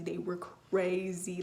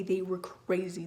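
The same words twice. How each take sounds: First: They were crazy slowed, crazy drawn out; slow down and lean on crazy; slower, insistent repeat of crazy; emphatic repeat. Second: Said in the usual way. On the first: Shown as a demonstration. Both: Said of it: "my hormones were crazy".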